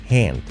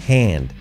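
No difference in how they are said.

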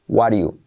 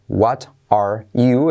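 First: The words are reduced and run together. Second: Each word is said fully and separately.

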